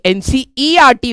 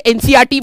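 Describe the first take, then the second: First: एनसीईआरटी said slowly with a separate ई before आर; E pronounced. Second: एनसीईआरटी said as "एन-सी-आर-टी", skipping the ई; E dropped. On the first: Shown as a demonstration. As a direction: give the ई in एनसीईआरटी its own clear beat. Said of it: "ई को कोई इज्जत ही नहीं है". (एनसीईआरटी में ई को अलग से साफ़ बोलना) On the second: Retold or imitated. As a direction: run सी straight into आर in एनसीईआरटी, no ई. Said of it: "कुछ बच्चे एनसीईआरटी बोलते हैं". (एनसीईआरटी में ई गायब करके बोलना)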